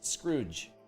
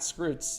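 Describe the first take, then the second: First: The word ends with a J sound. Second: The word ends with a TS sound. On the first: The speaker calls it right. "make a J sound" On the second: The speaker calls it wrong. "It's not Scroots"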